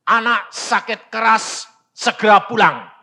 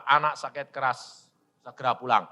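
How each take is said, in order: First: Emphatic acted telegram; urgent telegram reading. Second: Said in the usual way. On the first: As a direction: announce each phrase with alarm.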